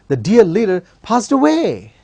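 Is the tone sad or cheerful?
cheerful. It is said in a cheerful, excited tone.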